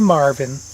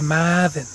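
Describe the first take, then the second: First: The name is said in a general accent. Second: The name is said in a Massachusetts accent. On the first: "they don't say Marvin" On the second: "up there, they say Marvin"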